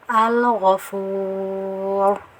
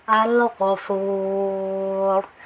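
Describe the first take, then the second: Both takes have the same delivery.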